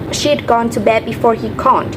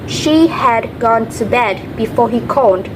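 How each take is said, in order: First: The words she had are contracted to she'd. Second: The words she had are said in full.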